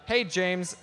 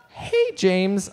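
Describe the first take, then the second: First: Said in the usual way. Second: Loud call. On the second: Shown as a demonstration. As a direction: call out his name, louder. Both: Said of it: "Please say this".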